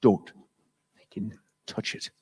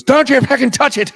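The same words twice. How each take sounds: First: Soft, unvoiced threat; whispered bartender threat, much softer; menacing whisper. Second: Much higher, louder, barking bartender; high, loud mock Irish bartender yell; furious shout. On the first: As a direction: hiss a warning, barely a breath. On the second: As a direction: yell at the customer not to touch it. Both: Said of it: "he goes".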